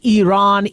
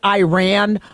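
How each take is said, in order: First: The name is said with its native pronunciation. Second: The name is said with the usual English pronunciation. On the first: The speaker calls it right. "but it's Iran" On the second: The speaker calls it wrong. "We've been calling it Iran"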